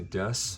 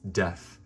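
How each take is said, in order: First: The word ends with an s sound. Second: The word ends with a th sound. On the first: "Japanese people don't have an approximate for, for the sound of th. So they have to say des" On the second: "There's this word, it's called death"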